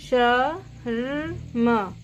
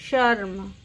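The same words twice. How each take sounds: First: शर्म stretched very slowly, each sound drawn out; slow spelled-out word. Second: Said in the usual way. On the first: Shown as a demonstration. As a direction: drag शर्म out syllable by syllable. (शर्म को बहुत धीरे खींचकर बोलना) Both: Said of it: "इसकी आवाज़ रेफ की कैसे आती है".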